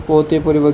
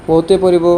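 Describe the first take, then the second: No difference in how they are said.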